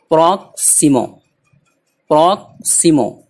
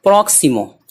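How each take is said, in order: First: proximo slower, with a gap after prok; word in parts. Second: Said in the usual way. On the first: Shown as a demonstration. Teacher drilling a new word, proximo in separated parts. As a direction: split proximo into prok and simo.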